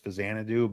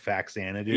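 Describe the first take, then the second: First: The middle consonant is sounded as z. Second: The middle consonant is sounded as ks. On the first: This is the pronunciation learned as the intended one. "I say Fazanadu just because like I learned that it was Fazanadu" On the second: This is the pronunciation commonly used growing up. "growing up we all said Faxanadu"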